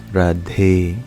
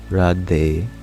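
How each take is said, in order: First: The D is said with a puff of air. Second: The D is said without a puff of air. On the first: The speaker calls it right. "The D is aspirated" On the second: The speaker calls it wrong. "So it's not just Radhe"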